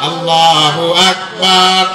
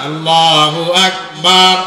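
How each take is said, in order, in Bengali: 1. Akbar-এর শেষ স্বরধ্বনিটি লম্বা করে টানা হয়। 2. Akbar-এর শেষ স্বরধ্বনিটি লম্বা করে টানা হয়।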